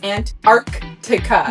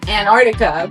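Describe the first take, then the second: First: The c before the t is clearly pronounced. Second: The c before the t is dropped. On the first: The speaker calls it right. "but it's Antarctica" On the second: The speaker calls it wrong. "You might say Antarctica"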